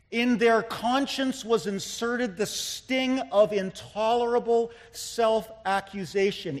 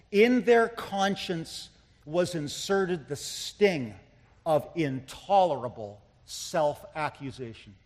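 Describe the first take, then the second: First: The whole sentence driven through without breaks; firmer, flowing repeat. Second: Slow reading with pauses between phrases; slow, weighty quoting. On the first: Preacher repeating Parker's line to drive it home, firm and flowing. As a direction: press the quotation home in one sweep. Repeats the quotation more forcefully. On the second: Preacher first quoting Joseph Parker to the congregation, slow and deliberate. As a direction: let each phrase sink in, slowly. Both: Real, not acted.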